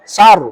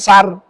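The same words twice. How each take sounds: First: The r is pronounced heavy and thick. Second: The r is pronounced light and thin. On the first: The speaker calls it right. "harus dibaca tebal" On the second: The speaker calls it wrong. "bukan sar"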